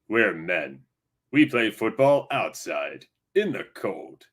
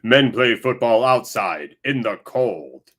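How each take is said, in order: First: It is said in a put-on announcer voice. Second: It is said in a normal speaking voice.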